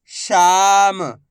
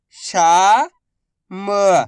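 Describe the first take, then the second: First: Said in the usual way. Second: Very slow, each syllable drawn out. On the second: Shown as a demonstration. Teacher sounding out a word for pupils, slow syllables. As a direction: spell the word out slowly for a child. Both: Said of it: "मैं किस तरीके से".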